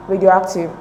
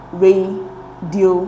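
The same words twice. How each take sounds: First: "radioactive" with the stress on "ac"; "radioactive" joined up, main beat on the syllable "ac". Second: Slow, split into separate syllables; "radioactive" broken up with a pause between syllables. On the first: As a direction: say "radioactive" as one word, leaning on "ac". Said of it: "the stress is in arc". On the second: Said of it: "divide the words into syllable". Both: Shown as a demonstration.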